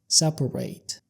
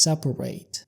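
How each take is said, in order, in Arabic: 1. يُنطق مثل الفعل. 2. يُنطق مثل الفعل.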